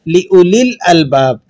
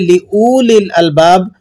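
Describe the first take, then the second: First: The written waw is silent; the vowel is short. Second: The written waw is sounded; the vowel is long. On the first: The speaker calls it right. "हम इसे किस तरह से अदा कर रहे हैं?" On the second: The speaker calls it wrong. "आप अगर इसे इस तरह से पढ़ेंगे"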